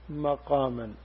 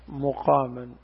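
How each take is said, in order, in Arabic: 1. المقطع الأول فيه الحركة 'a'. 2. المقطع الأول فيه الحركة 'u'. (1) "هذه قراءة بفتح الميم" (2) "قراءة الثانية مقاما بضم الميم"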